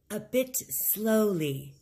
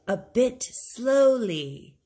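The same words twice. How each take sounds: First: Said in the usual way. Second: Slow model phrase. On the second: Shown as a demonstration. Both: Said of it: "Say the phrase after [name]".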